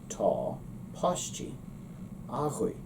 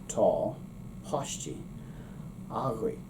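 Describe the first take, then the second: The two takes are said the same way.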